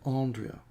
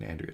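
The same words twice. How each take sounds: First: The name is said in a posh Australian accent. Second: The name is said in an everyday Australian accent. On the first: "if you're posh, you'd say" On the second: "some Australian"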